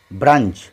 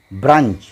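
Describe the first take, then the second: No difference in how they are said.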